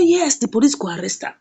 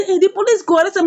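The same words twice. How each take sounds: First: "Yes, the police go arrest am" as a settled answer; confirming. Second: "the police go arrest am" pitched high as a question. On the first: Lawyer answers the worried friend, confirming. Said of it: "He say". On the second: Friend asks the lawyer if police will arrest, questioning. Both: Acted.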